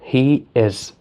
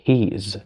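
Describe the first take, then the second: First: It is said as two full words. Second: It is said fast as one contracted word.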